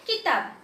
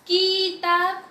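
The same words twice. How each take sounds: First: किताब with a quick, short "ki"; short vowel. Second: किताब drawn out as "keee-taab"; wrong long vowel. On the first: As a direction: say किताब lightly, without stretching. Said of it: "धीरे से पढ़ा मैंने". (किताब, छोटी इ के साथ) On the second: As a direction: stretch किताब slowly, with a long first vowel. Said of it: "मैंने ऐसा पढ़ा". (किताब में की को खींचकर) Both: Shown as a demonstration.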